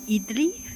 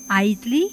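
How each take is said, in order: First: The first vowel is a short ih sound. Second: The first vowel sounds like the word eye. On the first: The speaker calls it wrong. "not idli" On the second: The speaker calls it right. "the I in idli is pronounced like I"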